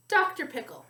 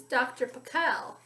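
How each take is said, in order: First: Said in the usual way. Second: Pickle said with the stress on its last syllable, pi-KLE; Doctor Pickle, leaning on the end of Pickle: pi-KEL; stress on second syllable. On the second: Shown as a demonstration. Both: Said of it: "with the accent on the second syllable".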